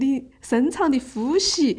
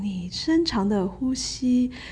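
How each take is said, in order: First: It is said in Sichuan dialect. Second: It is said in standard Mandarin. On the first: It sounds a bit rustic and unrefined. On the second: It sounds refined and sophisticated.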